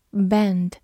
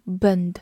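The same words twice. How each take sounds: First: "bend" with a short, narrow "e" as in "bed"; small-mouth E vowel. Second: "bend" wrongly said with a central "uh" vowel, like "bund"; mispronounced vowel demo. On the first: Teacher shows learners the correct "bend", small-mouth E. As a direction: say "bend" with the mouth only slightly open. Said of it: "字母E发小口的哎". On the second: Teacher warns learners off a wrong "bend", said as "buhnd". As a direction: say "bend" as "buhnd", the mistake to avoid. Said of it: "注意不要发成bend". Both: Shown as a demonstration.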